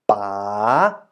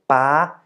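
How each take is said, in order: First: The pitch dips and then rises. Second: The pitch stays high throughout. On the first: "And the rising tone" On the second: "For the high tone"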